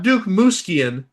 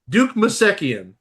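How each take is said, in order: First: The s and k in the surname run together. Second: A vowel separates the s and k in the surname. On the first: The speaker calls it wrong. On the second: The speaker calls it right.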